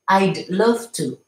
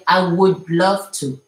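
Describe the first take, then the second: First: The word would is contracted to I'd. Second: The word would is said in full. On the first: "c'est contracté" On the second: "Au lieu de dire"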